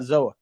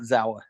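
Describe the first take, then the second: First: The name is said as 'Zoa', without a 'w'. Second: The name is said as 'Zawa', with a 'w'. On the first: This is how it reads when seen written online. The speaker calls it wrong. "when you see it online, you're like, oh yeah, Zoa" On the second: This is what the people involved actually call it. The speaker calls it right. "but we all call it Zawa"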